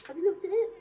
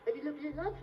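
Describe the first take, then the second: First: High, loud, impatient check; insistent repeat. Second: Said in the usual way. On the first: Acted. Performer chivvying his volunteer, loud and insistent. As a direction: raise it sharply to get an answer. Repeats question after no answer.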